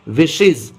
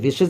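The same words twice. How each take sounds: First: The plural ending is said as 'iz'. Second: The plural ending is not said as 'iz'. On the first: The speaker calls it right. "ईएस को इज पढ़ेंगे" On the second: The speaker calls it wrong. "अरे विशेज नहीं होता"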